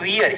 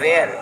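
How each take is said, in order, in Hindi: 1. स्वर 'near' में 'ear' जैसा सुनाई देता है। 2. स्वर 'hair' में 'air' जैसा सुनाई देता है। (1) "पीपल कॉल इट वियर, ये वियर नहीं है" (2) "ये वेयर है"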